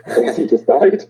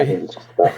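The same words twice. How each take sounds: First: Higher, louder with a laugh. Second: Said in the usual way. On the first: Real, not acted. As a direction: laugh through the line.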